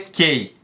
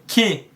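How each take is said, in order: First: The word ends with an 'ay' vowel sound. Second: The word ends with an 'ee' vowel sound. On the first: The speaker calls it wrong. "mas você não lê key" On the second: The speaker calls it right. "você lê key"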